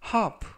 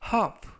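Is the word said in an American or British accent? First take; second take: British; British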